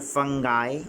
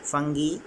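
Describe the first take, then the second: First: It is said in an American accent. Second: It is said in a British accent. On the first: "in American pronunciation" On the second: "in British pronunciation"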